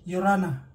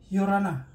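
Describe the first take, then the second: The two takes are said the same way.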